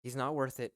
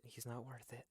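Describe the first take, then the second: First: Firm reassurance. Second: Much softer, under the breath; hushed repeat. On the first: Talking someone down from a fight, firm. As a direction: say it up front, clearly voiced. Calming someone, said then softly repeated. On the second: Talking someone down from a fight, hushed. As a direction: drop it right down, almost to yourself. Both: Acted.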